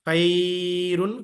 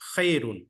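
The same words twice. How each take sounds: First: The first vowel is drawn out, not glided quickly. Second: The first vowel glides quickly as one short diphthong. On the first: The speaker calls it wrong. "खैरुन गलत है" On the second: The speaker calls it right. "जल्दी पढ़ेंगे, लीन करेंगे उसको"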